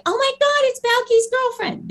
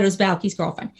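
First: Very high-pitched fangirl squeal; imitated excited fan. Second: Said in the usual way. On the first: Mimicking fans spotting her from the show, squealing excitement.

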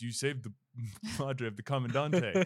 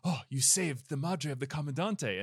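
First: A mock bull voice breaking into laughter. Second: Said in the usual way. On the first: Retelling the movie, voicing the bull with a laugh. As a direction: ham up the bull, laughing through it. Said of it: "And then the bull goes". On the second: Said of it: "They said".

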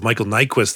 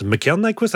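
First: Said in the usual way. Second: "Mikhail" said as mee-kah-EEL, tentatively; unsure foreign-style reading of "Mikhail"; alternative pronunciation. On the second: Real, not acted. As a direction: try "Mikhail" in two distinct vowels, mee-kah-EEL. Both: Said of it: "however you say his name".

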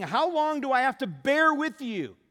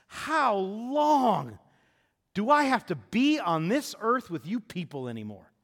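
First: Loud, high, with "bear" hit hardest and falling; stress on bear. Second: Drawn-out, loud, pained "How long", pitched high; Jesus groaning at the people, loud and weary; exasperated Jesus. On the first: Preacher restating Jesus, punching "bear" loudly. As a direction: lean hard on "bear" as an exasperated plea. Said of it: "that's what he's saying". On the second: Jesus to the crowd, exasperated loud complaint. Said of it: "What in the world is his response". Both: Retold or imitated.

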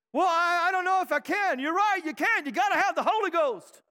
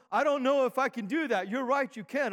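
First: High, rousing Southern preacher cadence. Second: Said in the usual way. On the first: Acted. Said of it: "didn't I sound like a Southern preacher right there". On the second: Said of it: "didn't I sound like a Southern preacher".

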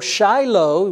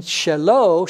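First: Shiloh as SHY-loh; English Shiloh. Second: Shelo as sheh-LOH, slow and deliberate; Hebrew Shelo. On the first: Preacher giving the familiar English form, Shiloh as SHY-loh. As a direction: say Shiloh with a long i up front. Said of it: "we would say it Shelo in". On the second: Preacher contrasting Hebrew with English, slow Shelo. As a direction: say Shelo with a short e in the first syllable. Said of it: "we would say it Shelo in, in Hebrew". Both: Shown as a demonstration.

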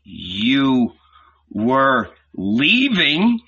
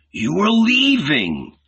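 First: Very slow, drawn-out accusing question; angry disbelief, dragged out word by word; angry repeat. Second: High, drawn-out outburst; sudden wild outcry, pitched well up; wild accusing cry. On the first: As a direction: stretch each word out, rising into anger. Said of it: "he repeated angrily". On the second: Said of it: "heard his wild, hoarse voice". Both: A narrator's reading.

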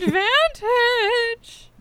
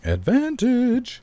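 First: Very slow, high, stretched out; high drawn-out call. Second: High drawn-out call. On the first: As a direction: drag the word out high. Echoing advantage drawn out. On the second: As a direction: stretch it high and slow. Chanting the word advantage. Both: Real, not acted.

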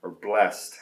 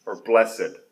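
First: Blessed said as one syllable, blest. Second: Blessed said as bless-ed, two syllables. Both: Shown as a demonstration. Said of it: "however you want to say it".

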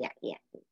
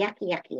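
First: Whispered yucky, yucky, voiceless; whispered nag. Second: Lightly voiced nagging chatter, spoken; a hint of the inner nag Chatty Cathy. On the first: Retold or imitated. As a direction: hiss the nagging voice's yucky, yucky under breath. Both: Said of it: "Her name is Chatty Cathy".

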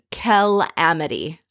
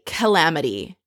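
First: "calamity" drawn out slowly in broken-up syllables; emphatic CALAMITY. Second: Said in the usual way. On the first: Retold or imitated. Recapping Bethany's confessional verdict, "calamity" slow and emphatic. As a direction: stretch "calamity" for emphasis, splitting the first syllable off. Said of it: "and she means calamity". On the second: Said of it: "she means calamity".

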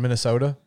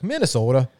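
First: Said in the usual way. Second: Exaggerated Minnesota accent, long round O. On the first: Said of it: "Like, Minnesota". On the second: Shown as a demonstration. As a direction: put on a mock Minnesotan accent saying Minnesota. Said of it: "the only accent worse than mine".

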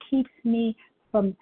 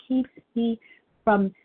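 Both takes have the same delivery.

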